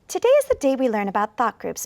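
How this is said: It is read quickly with few pauses. The speaker calls it wrong. "number one was uh, too fast"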